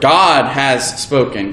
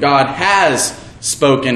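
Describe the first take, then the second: First: The stress falls on the word God. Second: The stress falls on the word has.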